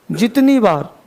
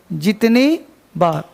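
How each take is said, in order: First: Said in the usual way. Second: जितनी बार said slowly, word by word for writing down; slow it down so students can write it; slow dictation. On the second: Shown as a demonstration. (धीरे-धीरे लिखवाते हुए) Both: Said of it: "पहले इसको लिख लो".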